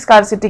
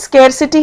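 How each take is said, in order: First: The first vowel sounds like 'ah'. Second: The first vowel sounds like 'air'. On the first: The speaker calls it wrong. "बहुत लोग इसको स्कारसिटी स्कारसिटी कहते हैं, वो नहीं है" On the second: The speaker calls it right. "इसकी pronunciation स्केरसिटी है"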